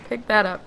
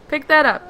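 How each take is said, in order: First: Said in the usual way. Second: Louder, higher insistent command; impatient raised repeat. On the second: Real, not acted. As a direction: say it again with more push.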